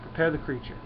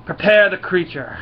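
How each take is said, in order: First: Said in the usual way. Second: Loud, raised-pitch imperious order; hammed-up commanding yell; queen's yelled command. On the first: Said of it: "the Queen of the Brood". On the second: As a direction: call out an order like an alien queen. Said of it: "Queen of the Brood yells out".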